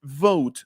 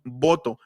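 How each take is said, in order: First: Vote with labiodental v, teeth on lip; English vote. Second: Voto with bilabial b, both lips; Spanish voto. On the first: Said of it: "la palabra vote en inglés". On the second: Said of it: "En español decimos voto". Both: Shown as a demonstration.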